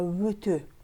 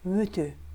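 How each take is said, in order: First: The second vowel sounds like 'ö'. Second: The second vowel sounds like 'ö'.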